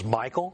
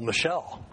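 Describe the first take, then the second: First: The name is said like Michael. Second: The name is said like Michelle. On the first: The speaker calls it wrong. "which I used to pronounce as Michael" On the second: The speaker calls it right. "but some woman told me, well, Michelle"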